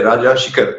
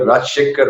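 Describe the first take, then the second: First: "राजा शिखर" as two words, with short "i" in शिखर; intended pronunciation. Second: "राजशेखर" run together as one word, with "she" in शेखर; others' pronunciation. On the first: Shown as a demonstration. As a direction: say "राजा शिखर" distinctly, RAA-jaa SHI-khar. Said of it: "सचमुच नाम होना चाहिए राजा शिखर". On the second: Retold or imitated. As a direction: say "राजशेखर" as people do, raj-SHEKH-ar. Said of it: "कई लोग राजशेखर बोलते हैं".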